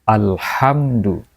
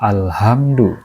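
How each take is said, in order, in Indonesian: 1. Bunyi h itu kasar, dari tenggorokan, dan tertekan. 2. Bunyi h itu ringan, biasa, dan berdesah. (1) "tapi alhamdu" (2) "Jangan dibaca alhamdu"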